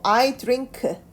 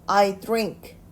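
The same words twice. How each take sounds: First: The final k is released with a full vowel. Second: The final k is said only faintly. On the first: The speaker calls it wrong. "크 라고 읽지 않고 I drink 이렇게 읽지 않고요" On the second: The speaker calls it right. "희미하게 남아있는 발음으로 해줍니다"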